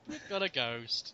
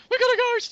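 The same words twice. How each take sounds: First: Low, slow, quiet and unimpressed; underplayed, dropped low and soft; deadpan understatement. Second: High-pitched loud squeal of alarm; hammed-up excitement, much higher and louder; mock excited cry. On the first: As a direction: say it slowly as a weary matter of fact. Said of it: "It's like". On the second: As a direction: shriek it as an over-the-top panic. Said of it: "It's not like".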